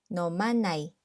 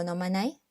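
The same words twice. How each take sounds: First: Said in the usual way. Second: "nomanai" with pitch climbing at the end, as a question; rising intonation. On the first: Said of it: "Then we set it with a rising intonation". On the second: Shown as a demonstration. Teacher showing how to invite someone, "nomanai" with rising intonation. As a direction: turn "nomanai" into a question by lifting the ending. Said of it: "we set it with a rising intonation to change it into a question".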